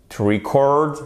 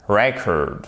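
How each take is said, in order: First: Record as the verb, ri-CORD; "to record" with short I and late stress; stress on second syllable. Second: Record as the noun, REC-ord; record with open E and early stress; stress on first syllable. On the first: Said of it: "sur la seconde syllabe". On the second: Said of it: "mais sur la première". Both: Shown as a demonstration.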